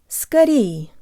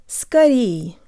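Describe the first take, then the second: No difference in how they are said.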